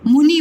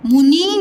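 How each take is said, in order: First: मुनि with a quick, short u; मुनि with no stretch on the first syllable; correct short vowel. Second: मुनि with the vowels drawn out, "mooo-nee"; मुनि said as a mistaken long-u word; wrong long vowel. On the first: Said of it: "मुनि बोलते हैं". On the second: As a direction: stretch the first vowel of मुनि. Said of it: "मुनि नहीं बोलते". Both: Shown as a demonstration.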